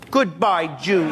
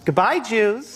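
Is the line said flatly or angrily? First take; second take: angrily; flatly. First: It is said with more anger. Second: It is said flatly, without anger.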